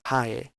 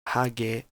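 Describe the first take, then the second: First: The middle consonant is weakened, nearly gone. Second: The middle consonant is a full g sound. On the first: "one would say hae" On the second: "instead of hage"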